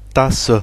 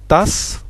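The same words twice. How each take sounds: First: The final e is sounded. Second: The final e is silent. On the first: This is the German word. "En allemand on dit tasse" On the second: This is the French word. "en français on dit tasse, on prononce pas le E"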